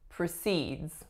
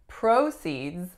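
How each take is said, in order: First: The stress is on the second syllable. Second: The stress is on the first syllable. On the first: It is the verb meaning to continue. "the strongest syllable is the second. The first syllable was a schwa" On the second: It is the noun meaning income from a sale. "So the strongest syllable would be the first"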